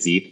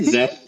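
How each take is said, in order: First: The name does not rhyme with Geth. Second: The name rhymes with Geth. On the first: This is how many other people say it. "lots of people say it Zeeth as well" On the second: This is how the project's own team says it. "we say it Zeth like Geth"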